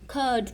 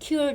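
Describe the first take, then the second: First: No glide comes before the vowel. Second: A 'y' glide comes before the vowel. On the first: The speaker calls it right. "आप उसको कर्ड पढ़ेंगे" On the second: The speaker calls it wrong. "आप क्यूर्ड नहीं उसको पढ़ेंगे"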